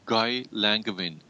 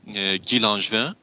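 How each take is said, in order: First: The name is pronounced the English way. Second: The name is pronounced the French way. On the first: "His name in English would be" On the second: "it was a French pronunciation"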